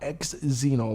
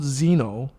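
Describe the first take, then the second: First: The word starts with an added eks sound. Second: The word starts with a plain z sound. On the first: The speaker calls it wrong. "you always mispronounce it" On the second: The speaker calls it right. "It's just called Xeno"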